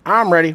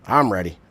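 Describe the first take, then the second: First: Hype shout. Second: Said in the usual way. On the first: Real, not acted. Hyping himself before game.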